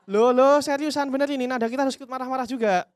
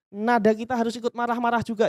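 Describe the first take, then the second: First: Louder, higher, matching the customer's heat; matching angry tone. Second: Said in the usual way. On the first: Shown as a demonstration. Trainer showing CS how to match an angry caller, loud and high. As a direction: rise up to the angry customer's level.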